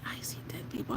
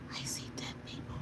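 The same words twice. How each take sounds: First: Whispered line; imitating a whisper. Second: Breathy whisper; whispered quote. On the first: Fan quoting a halftime show in a whisper. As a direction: breathe it out like a rapper. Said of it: "when he was like". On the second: Retold or imitated. Streamer jokingly quoting a rapper. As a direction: breathe the words.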